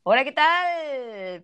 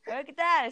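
First: Slow, holding back a laugh; barely keeping it together; stifled giggles. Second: Said in the usual way. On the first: Real, not acted. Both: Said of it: "Empecemos de nuevo".

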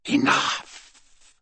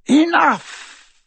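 First: Enough! breathed as a cold whisper; whispered command. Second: Sharp loud high cry of enough; loud command. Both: Acted. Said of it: "said Voldemort".

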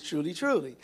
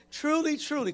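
First: Said in the usual way. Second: "Truly, truly" lifted higher, each "truly" pressed; emphatic repetition. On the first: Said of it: "verily, verily" means". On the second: Shown as a demonstration. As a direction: lean on "Truly, truly" as a double oath. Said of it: "I'm gonna put an extra emphasis on this thing".

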